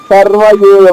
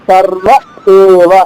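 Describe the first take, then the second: First: It runs on with no break, giving 'yeva'. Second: It pauses before the vowel, giving a clean 'eva'. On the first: The vowel turns into a 'ya' sound. The speaker calls it wrong. "ఆప ఆపకుండా పాడి చూడండి" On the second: The vowel comes cleanly from the throat. The speaker calls it right. "ఆపి పాడండి"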